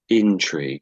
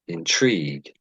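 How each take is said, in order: First: The stress is on the first syllable. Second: The stress is on the last syllable.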